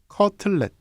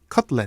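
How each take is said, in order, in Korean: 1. 한국어 발음이며 음절은 네 개입니다. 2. 영어 발음이며 음절은 두 개입니다. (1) "한국말로는 커틀렛, 사음절이 되죠" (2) "영어로는 원래 커틀렛이 이음절입니다"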